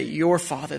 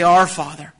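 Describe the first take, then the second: First: YOUR picked out in "Your father"; stress on YOUR. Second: OUR hit louder in "Our father"; stress on OUR. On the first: Preacher pointing out the brothers' wording, stress on YOUR. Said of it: "Notice what they say there". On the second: Preacher giving what the brothers don't say, stress on OUR. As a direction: punch "Our" as the word they avoided. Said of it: "They don't say". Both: Shown as a demonstration.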